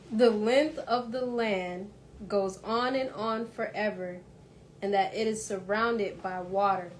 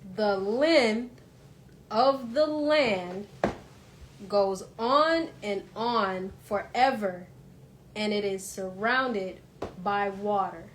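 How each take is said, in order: First: It is read slowly. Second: It is read very slowly.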